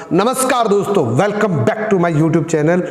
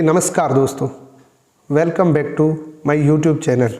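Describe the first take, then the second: First: Bright-toned, lifted channel welcome; energetic greeting. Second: Level, unexcited hello to viewers; low-energy greeting. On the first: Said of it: "मैंने इसको इस तरीके से बोला". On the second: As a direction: say the intro with no lift. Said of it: "लेकिन tone change है।". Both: Shown as a demonstration.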